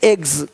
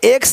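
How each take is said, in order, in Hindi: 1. शब्द का अंत gz ध्वनि से होता है। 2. शब्द का अंत ks ध्वनि से होता है। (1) "नहीं एग्स" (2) "एक्स नहीं"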